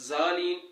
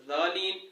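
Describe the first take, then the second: The two takes are said the same way.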